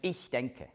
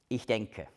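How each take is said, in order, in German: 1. Das Wort ich trägt starke Betonung. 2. Das Wort ich wird ohne besondere Betonung gesprochen.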